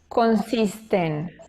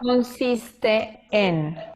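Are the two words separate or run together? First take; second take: run together; separate. First: The two words merge into one. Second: The two words are said separately.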